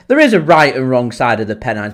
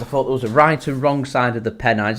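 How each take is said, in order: First: Emphatic rebuttal leaning on "is"; stress on IS. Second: Said in the usual way. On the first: Real, not acted. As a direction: hit the word "is" hard, louder, to insist. Emphatic answer to viewer's comment.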